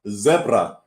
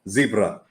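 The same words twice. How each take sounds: First: The word is said the non-American way. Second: The word is said the North American way. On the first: The speaker calls it right. "it's zebra" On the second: The speaker calls it wrong. "To any North Americans watching, ... not zebra"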